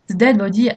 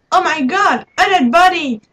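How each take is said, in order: First: Said in the usual way. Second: High, startled gasp of alarm; shocked exclamation. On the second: Acted. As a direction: cry out at finding a body. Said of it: "exclaimed Doc".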